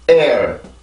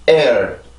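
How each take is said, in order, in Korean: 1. 첫 번째 모음 부분에만 강세가 있어서 한 박자예요. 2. 첫 번째 모음 부분에만 강세가 있어서 한 박자예요.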